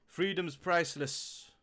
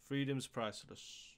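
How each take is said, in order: First: Freedom's priceless said louder and slowly, stressing Freedom's; emphatic title. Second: Said in the usual way. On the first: Real, not acted. Naming the rapper's album, emphatic and slow. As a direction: announce Freedom's priceless like a headline.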